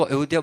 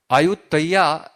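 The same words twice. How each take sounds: First: Said in the usual way. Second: આયુતૈયા, slowly, with a "tai-ya" ending in place of "dhya"; આયુતૈયા in slow syllables, a-yut-tai-ya; local pronunciation. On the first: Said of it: "લોકો અયોધ્યા બોલી શકે નહીં". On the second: Shown as a demonstration. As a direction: say આયુતૈયા as locals pronounce Ayodhya, drawn out. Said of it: "એનો ઉચ્ચાર કરે છે".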